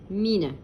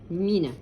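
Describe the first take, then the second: No difference in how they are said.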